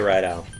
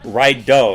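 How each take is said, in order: First: The name ends with an 'out' sound. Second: The name ends with an 'oh' sound. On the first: The speaker calls it wrong. "Why did I say Rideout?" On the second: The speaker calls it right. "It's Rideau because the the O always makes the same sound"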